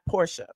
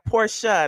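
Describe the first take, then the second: First: The word is said with one syllable. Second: The word is said with two syllables. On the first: The speaker calls it wrong. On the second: The speaker calls it right.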